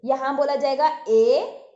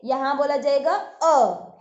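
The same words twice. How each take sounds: First: ए said loud as the long ay of "mate"; long e sound. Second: अ said as the open short a of "bad"; short a sound. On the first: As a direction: show the ay sound. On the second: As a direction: show the short vowel. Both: Shown as a demonstration.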